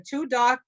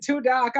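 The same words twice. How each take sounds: First: Said in the usual way. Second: "too dark" with a Boston accent, r dropped to "tahk". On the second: Shown as a demonstration. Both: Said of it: "here's my Boston accent".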